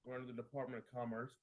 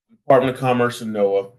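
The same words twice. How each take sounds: First: Faint, as if mic muted; muted mic, barely audible. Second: Said in the usual way. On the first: Real, not acted. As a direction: speak from behind a muted mic. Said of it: "Uh-oh, you're muted".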